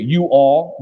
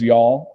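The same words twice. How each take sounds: First: "You all" said as two syllables; two separate words. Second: "y'all" run into one syllable; one-syllable contraction. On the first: Weighing it against the contraction, "You all" in two syllables. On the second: Weighing it against the full form, "y'all" as one syllable. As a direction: merge you and all into a single "y'all". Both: Shown as a demonstration. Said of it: "y'all's one syllable, verse two".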